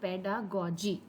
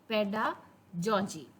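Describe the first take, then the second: First: The middle consonant is a hard g sound. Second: The middle consonant is a soft j sound. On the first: The speaker calls it right. "ये है पेडागॉजी" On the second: The speaker calls it wrong. "Not पेडाजॉजी"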